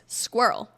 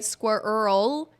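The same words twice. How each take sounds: First: The R and L flow together smoothly. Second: The R and L are split apart. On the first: The speaker calls it right. "The R and the L should be a connected sound without a pause between them" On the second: The speaker calls it wrong. "You don't want to say squirrel"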